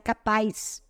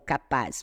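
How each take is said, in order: First: The ending has an added 'i' glide, like 'capaiz'. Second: The ending is a plain 'az' without a glide. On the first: This is the local way of speaking. "nós puxamos muito o I e o S no final das palavras. Então, sem querer, sai capaz" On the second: This is how the word is read. "na realidade, a leitura é o capaz"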